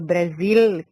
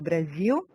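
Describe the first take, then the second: First: The word ends with a clear L sound. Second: The word ends with a U-like vowel sound. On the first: This is how people from the south say it. "eu não falo Brasil, como o pessoal do Sul" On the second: This is how people from São Paulo say it. "eu tenho esse U no final"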